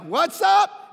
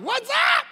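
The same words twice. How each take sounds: First: High, loud, swaggering shout; cocky whoop. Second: Much higher, louder show-off shout; cocky whoop. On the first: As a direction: crow like a show-off. Showing off after a great drive. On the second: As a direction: crow it even bigger. Showing off again, bigger. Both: Retold or imitated. Pastor bragging to golf partners, cocky shout.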